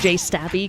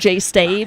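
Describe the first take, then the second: First: The last word has two syllables. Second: The last word has one syllable. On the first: The speaker calls it right. "I pronounce this Jay Stabby because that's just fucking awesome" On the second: The speaker calls it wrong. "not Jay Stabe"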